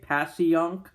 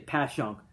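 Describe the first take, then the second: First: It is said the way an outsider would say it. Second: It is squeezed into two syllables, South Philly style.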